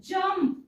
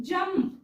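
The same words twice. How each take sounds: No difference in how they are said.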